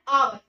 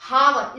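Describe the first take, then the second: First: The word begins directly with a vowel sound. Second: The word begins with an audible h sound. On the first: "ये एच silent है तो हमें सुनाई दे रहा है आवर" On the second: "इसको पढ़ेंगे एच O यू आर हावर"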